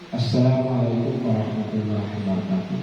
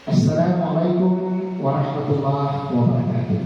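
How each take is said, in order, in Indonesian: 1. Salamnya diucapkan datar, tanpa senyum. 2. Salamnya diucapkan sambil tersenyum. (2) "Ini itu kalau kita tersenyum"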